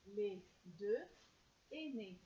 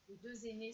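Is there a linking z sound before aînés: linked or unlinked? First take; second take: unlinked; linked. First: The words are said without a linking z sound. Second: A z sound links deux to aînés.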